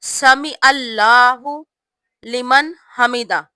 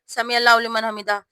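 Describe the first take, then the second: First: The phrase is said slowly and clearly. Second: The phrase is said quickly and rushed. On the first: The speaker calls it right. "साफ पढ़ना है" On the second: The speaker calls it wrong. "ऐसे जल्दी जल्दी नहीं पढ़ना"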